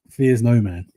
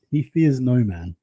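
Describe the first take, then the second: First: Said in the usual way. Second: "He fears no man" drawn out slowly; slow down on "fears no man" for weight; emphatic repeat. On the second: Real, not acted.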